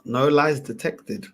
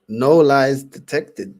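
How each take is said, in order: First: Said in the usual way. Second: Louder, slow and drawn out; loud emphatic verdict. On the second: Real, not acted. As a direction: hammer the verdict home slowly.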